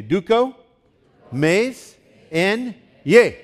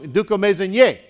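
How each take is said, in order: First: "Duko, mez, en, ye" in separate pieces, rising to a loud "ye"; syllable-by-syllable demonstration. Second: "duko, mez, en, ye" run together, ending on a loud "ye"; stress on last syllable. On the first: Preacher has congregation repeat after him, broken into syllables, last one stressed. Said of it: "Say it with me". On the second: Preacher leading congregation through the word, joined up, last syllable stressed. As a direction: join up duko, mez, en, ye and hit the final syllable hard. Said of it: "You put the emphasis on the f-, last syllable".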